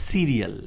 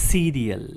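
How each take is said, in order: The two takes are said the same way.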